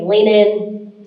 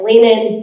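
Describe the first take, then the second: First: It is said at normal volume. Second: It is said very loudly.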